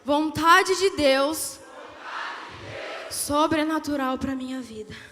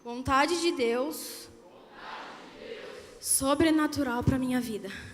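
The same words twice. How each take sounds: First: It is said louder and more forcefully. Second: It is said at normal, softer volume.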